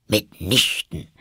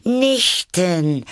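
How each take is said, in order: First: Slow, firm denial; decided, annoyed. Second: High, loud, delighted exclamation; calling out. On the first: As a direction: refuse with irritation. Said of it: "entschieden und sehr ärgerlich". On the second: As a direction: cry it out like a curious child. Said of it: "rief Alice". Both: A narrator's reading.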